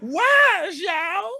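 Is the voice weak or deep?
weak. It is said in a weak, whiny voice.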